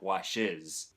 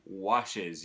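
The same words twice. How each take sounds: First: The stress falls on the second syllable. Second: The stress falls on the first syllable. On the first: The speaker calls it wrong. "not washes" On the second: The speaker calls it right. "It should be"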